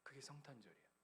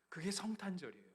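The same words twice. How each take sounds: First: Hushed restatement. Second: Emphatic declaration. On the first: Quiet restatement of climax. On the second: Sermon climax restated. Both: Acted.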